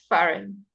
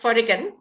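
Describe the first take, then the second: First: No g sound is pronounced before the n. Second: A g sound is pronounced before the n. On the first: The speaker calls it right. "it's foreign" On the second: The speaker calls it wrong. "it's not foreign"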